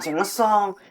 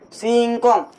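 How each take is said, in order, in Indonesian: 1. Suku kata kedua dimulai dengan bunyi s. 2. Suku kata kedua dimulai dengan bunyi k. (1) "Bukan singesong" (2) "Ini namanya singkong"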